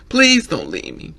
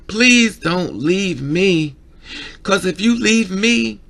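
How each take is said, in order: First: A mock plea, a bit louder; imitated pleading. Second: Very slow, louder imitated begging, pitch rising; slow desperate plea. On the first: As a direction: beg him to stay, lightly acted. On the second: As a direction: stretch every word, begging not to be left alone. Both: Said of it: "When a person cries saying".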